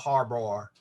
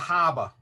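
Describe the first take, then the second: First: The word is said with R sounds. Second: The word is said without any R sound. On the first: "We don't have a harbor" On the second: "we have a haba"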